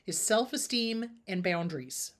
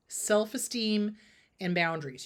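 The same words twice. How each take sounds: First: Said in the usual way. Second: Self-esteem spelled out slowly, each word weighed; slow emphasis. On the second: Shown as a demonstration. Therapist stressing the key to viewers, slow and deliberate.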